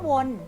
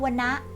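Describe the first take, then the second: First: It is said as one syllable. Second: It is said as two syllables. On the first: It means to go around in circles. "อ่านว่าวน" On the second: It means forest. "อ่านว่าวนะ"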